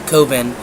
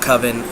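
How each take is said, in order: First: The first vowel is a long O. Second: The first vowel is a short O. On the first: The speaker calls it right. "So it's an O sound, a long O" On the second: The speaker calls it wrong. "It's not Coven um, because I don't like the short O sound"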